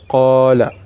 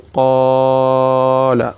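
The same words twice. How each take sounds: First: The first vowel is held for two counts. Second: The first vowel is stretched beyond two counts. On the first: The speaker calls it right. "two counts" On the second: The speaker calls it wrong. "where you elongate it beyond its count"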